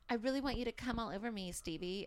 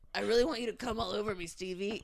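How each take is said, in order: First: It is voiced as the female character. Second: It is voiced as the male character.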